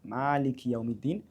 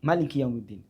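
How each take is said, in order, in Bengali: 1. প্রথম m-এর পরের স্বরধ্বনিটি দীর্ঘ। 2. প্রথম m-এর পরের স্বরধ্বনিটি হ্রস্ব। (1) "মিম পরে একটু লম্বা করবেন" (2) "আরেকভাবে"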